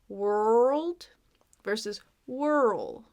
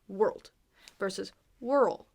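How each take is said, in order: First: The words are slowly stretched out. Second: The words are said at normal length.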